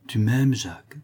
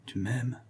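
First: A fond, wondering murmur; tender. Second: Much softer, rising echo of tu m'aimes. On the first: Cécilie wonders at the notary's love, tenderly. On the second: Cécilie repeats to herself, almost breathless. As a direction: let tu m'aimes fall away to a hush. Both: Acted.

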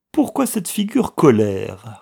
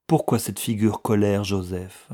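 First: Louder, higher repeated question; indignant echo. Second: Said in the usual way. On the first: A narrator's reading. Younger brother repeating the clerk's question, indignant. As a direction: throw the question back indignantly. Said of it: "répéta le cadet".

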